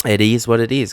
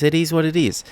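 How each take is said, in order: First: Said in the usual way. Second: Higher, fed-up repeat; exasperated. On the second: Real, not acted. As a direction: throw up your hands in disbelief.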